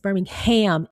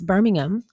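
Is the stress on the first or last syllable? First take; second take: last; first. First: The stress is on the last syllable. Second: The stress is on the first syllable. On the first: "emphasis on ham" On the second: "from my understanding, it's Birmingham"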